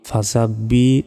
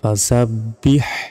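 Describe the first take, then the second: First: The word ends on a bare vowel. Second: The word ends with an audible h sound. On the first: The speaker calls it wrong. "আমরা অনেকে এখানে ভুল কি বলি" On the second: The speaker calls it right. "এখানে বড় হা রয়েছে"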